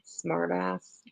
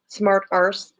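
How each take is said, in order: First: Said in the usual way. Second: "arse" with a long open vowel, British-style; "arse" for "ass". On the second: Real, not acted. Streamer correcting "ass" to "arse", said with a long "ah". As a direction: say "arse" with a broad long "ah" instead of the short "a" of "ass". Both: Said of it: "actually, not us".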